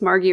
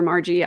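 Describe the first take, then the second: First: Margie said with a hard g; hard-g pronunciation. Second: Margie said with a soft g; soft-g pronunciation. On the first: Streamer unsure of a member's name, Margie with hard g. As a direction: say Margie as MAR-ghee. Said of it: "I don't know if it's Margie or Margie". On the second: Streamer offering another reading of the name, Margie with soft g. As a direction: say Margie as MAR-jee. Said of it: "I apologize if I'm saying it wrong". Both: Shown as a demonstration.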